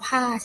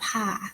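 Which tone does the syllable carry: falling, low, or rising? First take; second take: falling; low. First: The syllable is said with a falling tone. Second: The syllable is said with a low tone. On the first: "ใส่ไม้โทก็จะอ่านว่าผ้า" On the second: "พอใส่ไม้เอกนะคะ,ก็จะอ่านว่าผ่า"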